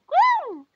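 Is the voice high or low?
high. It is said in a high, cheerful voice.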